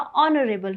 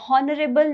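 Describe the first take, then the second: First: The word starts with a vowel sound. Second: The word starts with an h sound. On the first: The speaker calls it right. "ऑनरेबल होता है" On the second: The speaker calls it wrong. "हॉनरेबल नहीं होता"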